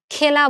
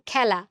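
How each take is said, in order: First: খেলা as "khela", with a close "e"; the rejected খেলা, pure "e"; close "e" vowel. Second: খেলা as "khæla", vowel opened wide. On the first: Teacher showing what isn't said, খেলা with close "e". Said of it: "খেলা বলতেছি না". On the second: Teacher giving the spoken form, খেলা with open "æ". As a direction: say খেলা with "æ" as in "cat". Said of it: "বলতেছি খেলা". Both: Shown as a demonstration.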